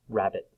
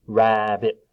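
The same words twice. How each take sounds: First: Said in the usual way. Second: "rabbit" loud, in two level beats; split into syllables. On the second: Shown as a demonstration. Teacher clapping syllables for children, "rabbit" split in two. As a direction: clap out "rabbit" part by part. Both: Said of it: "Before we clap it".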